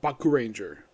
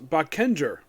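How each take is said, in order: First: The name is said as Baku Ranger. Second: The name is said as Bakenger. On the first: This is how the speaker has always said it. The speaker calls it wrong. "I pronounce it Baku Ranger" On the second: This is how others say it should be said. The speaker calls it right. "Apparently, it's pronounced Bakenger"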